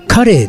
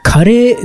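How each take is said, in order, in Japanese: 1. イントネーションが魚の karei と同じです。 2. イントネーションが魚の karei と違います。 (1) "魚のカレーと同じイントネーションで" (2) "カレーではなく"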